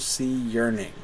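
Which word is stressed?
yearning. The stress falls on the word 'yearning'. It follows the rhythm of the poem's meter. "But that's not where the line puts the emphasis"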